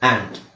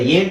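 First: The vowel is a short open 'a' sound. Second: The vowel sounds like the letter name 'ay'. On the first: The speaker calls it right. "ಆ" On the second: The speaker calls it wrong. "ಎ ಅಕ್ಷರದ ಏಂಟ್ ಅಂತ ಹೇಳ್ತೀವಾ? ಇಲ್ಲ"

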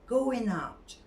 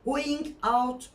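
First: The two words are linked together smoothly. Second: The two words are said separately. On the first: The speaker calls it right. "Birleştir, ulama var" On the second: The speaker calls it wrong. "Going out değil"

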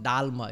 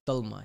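First: The first vowel sounds like 'ah'. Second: The first vowel sounds like 'oh'. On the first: The speaker calls it wrong. "It's not Dalma" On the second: The speaker calls it right. "just say oh, not ah"

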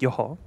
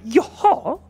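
First: It sounds calm, like a casual acknowledgement. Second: It sounds surprised, reacting to unexpected news. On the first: I am following what you are telling me. "you could be telling me something. I'll be like, yoho, yoho. It's like, mm-hmm" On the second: That news is unexpected. "Or you could tell me something surprising, and I'll be like, yoho"

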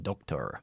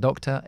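First: It is said with a schwa and a pronounced R. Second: It is said in a British accent without the R. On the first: "ellos dicen doctor ... con la schwa pero con la R" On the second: "Yo soy británico, yo digo doctor"

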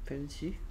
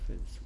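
First: The word ends with an added vowel after s. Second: The word ends on a bare s sound. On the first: The speaker calls it wrong. "펜시가 아니고" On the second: The speaker calls it right. "펜스인데"

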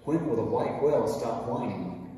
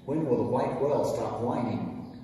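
Both takes have the same delivery.

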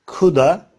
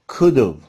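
First: Have is reduced to a short uh sound. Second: Have is reduced to a short v sound. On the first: "coulda, could've olarak telaffuz edebiliriz" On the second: "coulda, could've olarak telaffuz edebiliriz"

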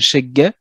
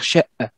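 First: The middle consonant is a hard g sound. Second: The middle consonant is a glottal catch. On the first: "certains la prononcent comme un gue" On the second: "d'autres le prononcent comme un h muet au final"

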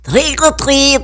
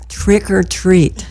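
First: It is said with a French accent. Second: It is said with a plain American accent.

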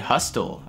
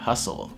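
First: A t sound is heard in the middle. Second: No t sound is heard in the middle. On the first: The speaker calls it wrong. "Не hustle" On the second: The speaker calls it right. "а hustle"

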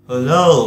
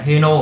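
First: The second syllable begins with an L sound. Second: The second syllable begins with an N sound. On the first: The speaker calls it right. "ơ ủ là lơ" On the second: The speaker calls it wrong. "thực ra nó không phải là heno"

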